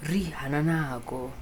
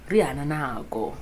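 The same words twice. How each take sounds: The two takes are said the same way.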